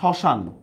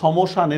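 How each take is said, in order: First: No m sound is heard after the s. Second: A clear m sound follows the s. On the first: The speaker calls it right. "মফলার কি উচ্চারণ হচ্ছে?" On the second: The speaker calls it wrong. "সমশান এরকম বলতেছি আমরা? হচ্ছে না।"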